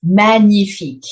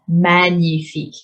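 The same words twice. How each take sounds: First: "Magnifique" louder, said man-yi-feek with a falling end; pronunciation model. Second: "Magnifique" again, man-yi-feek, softer and even; quiet model repeat. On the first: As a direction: project "Magnifique" clearly for learners. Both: Shown as a demonstration. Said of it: "This is just for the pronunciation".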